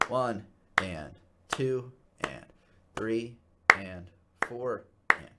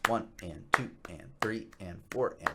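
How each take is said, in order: First: The count is spoken slowly, one word per beat. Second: The count is spoken quickly, two words per beat. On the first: The eighth notes take twice as long as the beat. The speaker calls it wrong. "I've played that same amount of beats over twice as much time" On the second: The eighth notes fit inside the beat. The speaker calls it right. "they're counted twice as fast"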